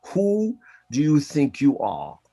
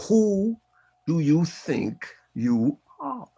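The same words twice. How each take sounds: First: Slow, lightly British voice of Alan Watts; a hint of a British lecturer asking slowly; Alan Watts impression. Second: Alan Watts impression. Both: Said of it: "had this beautiful British voice".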